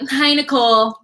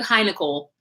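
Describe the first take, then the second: First: It sounds fake, smug and overly sweet. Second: It sounds plain and neutral, without a smile.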